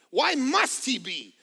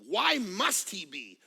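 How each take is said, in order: First: Louder insistent repeat, MUST stressed; emphatic repeat. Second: Said in the usual way. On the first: Shown as a demonstration. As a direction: hit "must" hard the second time. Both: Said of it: "repeats question, second louder".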